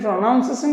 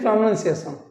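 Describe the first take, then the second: First: The second syllable sounds like 'nounce'. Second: The second syllable sounds like 'nun'. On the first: The speaker calls it wrong. "It is not really pronunciation" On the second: The speaker calls it right. "it is pronunciation"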